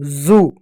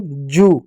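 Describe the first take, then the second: First: जू said "zoo", with a buzzing z; जू as English "zoo". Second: जू said "joo", with a j; जू as "joo", long vowel; j as in louse word. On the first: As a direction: start जू on a voiced z. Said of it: "जिसके spelling Z double O". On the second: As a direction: start जू on a clear j. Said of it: "उसको हम जू बोलते हैं". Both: Shown as a demonstration.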